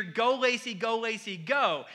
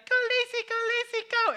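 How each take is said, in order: First: Said in the usual way. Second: Put-on much higher, tiny toddler voice chanting "Go Lacy"; little kid cheering. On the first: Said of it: "they would cheer". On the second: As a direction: squeak it out like a two-year-old fan. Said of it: "he'd be like".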